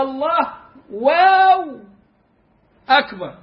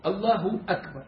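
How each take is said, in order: First: "الله واو أكبر" with a loud, drawn-out high "واو" between the words; wrong added waw. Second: "الله أكبر" softly, with a short "ه" vowel and no waw; just a quick short u after الله, quiet; correct short damma. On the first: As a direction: stretch "واو" long and loud as a mock mistake. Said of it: "ده بيكتبها لك كده". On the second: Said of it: "لا، هي الله". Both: Shown as a demonstration.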